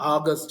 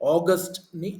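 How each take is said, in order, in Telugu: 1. మొదటి అచ్చు 'aa' లాగా ఉంటుంది. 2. మొదటి అచ్చు 'aw' లాగా ఉంటుంది.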